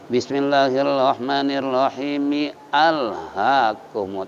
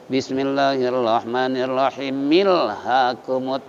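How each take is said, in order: First: The glottal catch starts alhakumut as a separate word. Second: The final m runs straight into lhakumut. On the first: The speaker calls it right. "Kalau wasal" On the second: The speaker calls it wrong.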